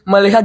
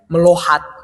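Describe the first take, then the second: First: The middle syllable has an 'i' vowel. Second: The middle syllable has an 'o' vowel. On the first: The speaker calls it right. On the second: The speaker calls it wrong.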